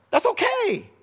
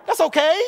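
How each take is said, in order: First: That's okay pitched much higher, in a put-on voice; playful high-voiced echo; mock reassurance. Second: A rising, louder That's okay; brisk upbeat reassurance; reassuring. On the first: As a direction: float That's okay way up and let it fall. Preacher repeats the phrase in a new voice. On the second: Acted. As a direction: lift That's okay up with a push of voice. Preacher reassures the congregation twice.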